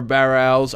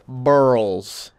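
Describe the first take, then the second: First: It is said with two syllables, like barrels. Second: It is said with one syllable, like burls. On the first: The speaker calls it wrong. "I need to look up how to pronounce that" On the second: The speaker calls it right. "the correct pronunciation of this word is burl"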